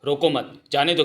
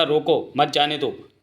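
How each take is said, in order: First: "रोको मत" together, break, then "जाने दो"; group मत with रोको, so it means don't stop; pause after मत. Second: "रोको", break, then "मत जाने दो"; group मत with जाने दो, so it means stop; pause after रोको. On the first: Accusing Bankelal of misquoting, pause placed after मत. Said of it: "इसने सैनिकों को भ्रमित किया". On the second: Defending his own order, pause placed before मत. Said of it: "मैंने कहा था". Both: Acted.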